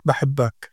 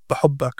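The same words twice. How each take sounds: First: بحبك said as bəhɪbək, with i and full -ak ending; standard pronunciation. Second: بحبك said as bəhʊbə, rounded u, ending clipped; Gazan pronunciation. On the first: Father contrasting the usual form with Gazan, standard pronunciation. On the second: Father showing how his daughter says it, Gazan pronunciation. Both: Shown as a demonstration.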